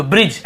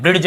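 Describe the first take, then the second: First: Said in the usual way. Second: ब्रिज with a hard retroflex D before the J; ब्रिज mispronounced as "BRID-j"; wrongly sounded D. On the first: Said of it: "ऐसे पढ़ रहे हैं". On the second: Shown as a demonstration. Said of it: "ड नहीं आ रहा".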